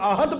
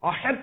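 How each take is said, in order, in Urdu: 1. h کی آواز ایک سادہ ہلکی "h" ہے۔ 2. h کی آواز ایک مضبوط حلقی "ḥ" ہے۔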